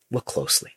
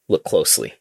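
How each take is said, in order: First: Hushed whisper, no voice. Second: Said in the usual way. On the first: Retold or imitated. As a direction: whisper it like a secret. Reading tweet, whispered repeat.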